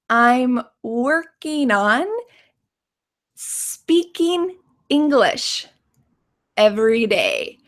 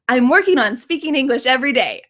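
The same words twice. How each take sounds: First: The sentence is spoken slowly and carefully. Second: The sentence is spoken quickly and smoothly. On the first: "Let's say it slowly" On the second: "Can you say it really fast?"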